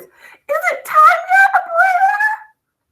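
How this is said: It is read in a high, squealing voice.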